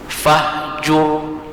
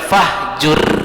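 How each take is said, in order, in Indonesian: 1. Bunyi r di akhir itu berat dan penuh. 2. Bunyi r di akhir itu tipis dan ringan. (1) "dia berpengaruh dengan kalimat sebelumnya" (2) "Jangan dibaca fahjur"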